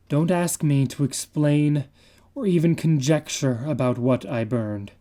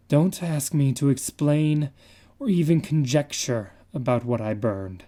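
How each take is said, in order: Both takes have the same delivery.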